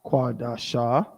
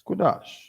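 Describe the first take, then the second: First: It ends with an extra vowel, three syllables. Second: It ends on the consonant, two syllables. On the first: The speaker calls it wrong. "It's not Quadasha" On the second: The speaker calls it right. "How many syllables is that? Two"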